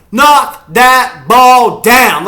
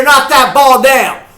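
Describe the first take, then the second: First: Each word yelled slowly, high and loud; drawn-out shout. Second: High, loud yell at a steady drive; excited shout. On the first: Fan savoring the defense's knockdown, slow drawn-out shout. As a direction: bellow it word by word. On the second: Fan cheering the defense's knockdown, excited shout. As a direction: yell it out to the players. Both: Real, not acted.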